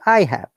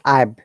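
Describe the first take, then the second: First: The two words are said separately and fully. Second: The two words are joined into one syllable. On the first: "if it is not contracted" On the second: "it should be pronounced I've"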